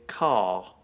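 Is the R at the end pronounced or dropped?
dropped. It ends with no R sound.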